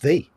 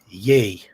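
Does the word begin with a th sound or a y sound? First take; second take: th sound; y sound. First: The word begins with a th sound. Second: The word begins with a y sound. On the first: The speaker calls it right. "It's pronounced the" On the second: The speaker calls it wrong. "When you say "ye,""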